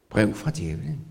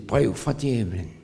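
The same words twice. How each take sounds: First: Amused. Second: Said in the usual way. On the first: Shown as a demonstration.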